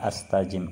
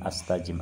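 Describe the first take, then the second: Both takes have the same delivery.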